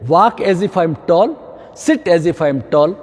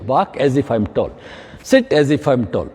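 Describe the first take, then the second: First: Slow, drawn-out mantra; slow instruction. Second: Slow, low repeated mantra; slow instruction. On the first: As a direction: spell it out slowly for the class. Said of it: "ये thumb rule बनाइए।". (धीमा, खिंचा हुआ निर्देश) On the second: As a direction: drill the rule in slowly. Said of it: "ये मेरी height अच्छी होगी". (धीमा, नीचा दोहराया गया निर्देश) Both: Shown as a demonstration.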